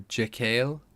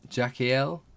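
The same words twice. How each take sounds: First: Jekyll said as "juh-KALE", rising as a question; alternative pronunciation. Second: Jekyll said as "JACK-ee-el", rising as a question; questioned pronunciation. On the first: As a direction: say Jekyll in two syllables, rhyming with kale. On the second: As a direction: say Jekyll in three syllables, "JACK-ee-el?". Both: Shown as a demonstration. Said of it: "am I pronouncing that one right".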